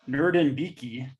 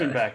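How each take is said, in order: First: The name ends with a 'beki' sound. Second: The name ends with a 'beck' sound. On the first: The speaker calls it wrong. "There's no Nerd, way that's right" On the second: The speaker calls it right. "I think it's Nerdenbeck is what they say"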